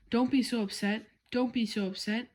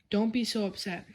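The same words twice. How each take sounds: First: A slightly raised, mock shout; mild shout. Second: Said in the usual way. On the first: A narrator's reading. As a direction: throw dad's words back, half-shouting. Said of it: "I shouted". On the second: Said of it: "So Freddie said, my dad".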